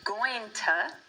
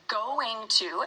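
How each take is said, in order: First: The words are partly shortened and run together. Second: Both words are said fully and separately. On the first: This is a shortened casual form. "that gets shortened to going to" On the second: This is the formal form. "We would formally say going to"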